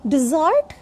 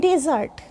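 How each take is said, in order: First: Dessert as di-ZART, short weak first vowel; contrasted pronunciation. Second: Desert as DE-zart, open first e; contrasted pronunciation. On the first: Teacher contrasting two words for learners, di-ZART. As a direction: begin dessert with a light di. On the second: Teacher contrasting two words for learners, DE-zart. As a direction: begin desert with a clear e. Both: Shown as a demonstration. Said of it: "know the difference between".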